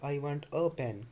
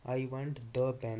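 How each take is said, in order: First: "I want a pen" slowed right down, with "a" leaned on; slow demo leaning on "a"; stress on a. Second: "I want the pen" slowed right down, with "the" leaned on; slow demo leaning on "the"; stress on the. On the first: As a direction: say it slowly and hit "a", meaning any pen. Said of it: "कोई सा ही pen दे दो". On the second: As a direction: say it slowly and hit "the", meaning this very pen. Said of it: "मुझे यही pen चाहिए". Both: Shown as a demonstration.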